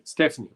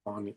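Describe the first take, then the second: First: Stephanie as STEF-uh-nee; pronunciation of Stephanie. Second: Stefani with "FAH" in the middle; steh-FAH-nee for Stefani, said softly; pronunciation of Stefani. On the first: Quizmaster weighs the options, Stephanie as STEF-uh-nee. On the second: Quizmaster weighs the options, soft Stefani as steh-FAH-nee. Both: Shown as a demonstration. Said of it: "Is it Stefani or Stephanie?".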